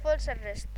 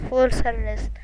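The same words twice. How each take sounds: First: Muttered. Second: Said in the usual way. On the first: Real, not acted.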